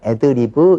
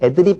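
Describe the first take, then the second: First: The word ends in an open 'beu' syllable. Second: The word ends in a closed 'p' sound. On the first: The speaker calls it right. "이렇게 하셔야 됩니다" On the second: The speaker calls it wrong. "잘못된 말이고요"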